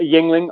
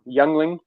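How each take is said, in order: First: The first syllable sounds like 'ying'. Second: The first syllable sounds like 'young'. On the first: The speaker calls it wrong. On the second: The speaker calls it right.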